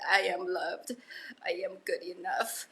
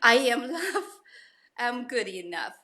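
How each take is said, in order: First: It is said quietly. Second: It is said loudly.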